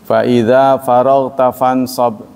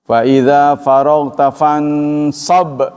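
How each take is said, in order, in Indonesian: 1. Kata terakhir diucapkan dengan ringan, tanpa menekan. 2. Kata terakhir diucapkan dengan keras, dengan menekan.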